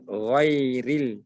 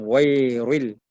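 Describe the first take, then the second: First: "ghairil" with a light, clear "ril"; thin ra. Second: "ghairil" with a heavy r, like "ghoiruil"; thick ra. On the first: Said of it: "Ra huruf tipis". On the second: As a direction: round the r of "ghairil" into "rui". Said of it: "dibaca ri dan bukan ri". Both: Shown as a demonstration.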